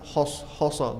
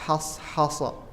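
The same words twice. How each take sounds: First: The first consonant is thick and heavy. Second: The first consonant is thin and light. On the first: The speaker calls it wrong. "Kita enggak boleh membaca hashasa" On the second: The speaker calls it right.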